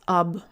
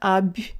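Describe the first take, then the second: First: The b is hard, with the tongue back. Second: The b is softened, with the tongue forward. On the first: The speaker calls it right. "you pronounce the b with your tongue farther back" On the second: The speaker calls it wrong. "It's not ab"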